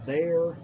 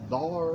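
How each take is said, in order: First: The word is said with the usual 'air' vowel. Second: The word is said with an 'ar' vowel.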